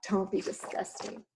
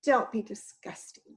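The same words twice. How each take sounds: First: Whispered cheeky echo of don't be disgusting. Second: Said in the usual way. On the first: Acted. Jack echoing Missus Giant in a sly whisper. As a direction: echo her under your breath. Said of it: "said Jack". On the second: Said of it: "said Missus Giant".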